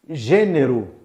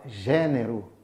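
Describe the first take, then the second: First: The first vowel is closed. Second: The first vowel is open. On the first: This is how it is said in Brazil. "no Brasil você fala" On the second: This is how it is said in Portugal. "em Portugal você fala gênero aberto"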